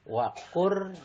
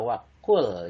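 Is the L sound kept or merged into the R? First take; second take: merged; kept. First: The L sound merges into the R. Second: The L sound is clearly pronounced. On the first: The speaker calls it right. "lamnya hilang, melainkan dibaca waqur robbi" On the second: The speaker calls it wrong. "tidak dibaca waqul"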